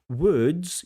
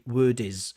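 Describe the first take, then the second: First: The final consonants blend into one syllable. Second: An extra vowel adds a second syllable. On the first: The speaker calls it right. "instead of saying words" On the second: The speaker calls it wrong. "you add an extra syllable"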